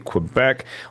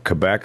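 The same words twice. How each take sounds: First: The word begins with a kw sound. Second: The word begins with a plain k sound. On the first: "a Qu" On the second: "a Cup"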